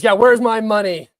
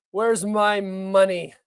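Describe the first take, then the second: First: Higher and louder, a lightly voiced demand; half-joking plea for cash; mock Zelensky demand. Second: Drawn-out, lightly voiced demand; slow mock plea. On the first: Streamer keeps up a weak Zelensky bit asking for money. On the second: Streamer repeats the Zelensky money line slowly as a bit. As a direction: stretch it out slowly, mock pleading. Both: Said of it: "I'm not very good at impressions".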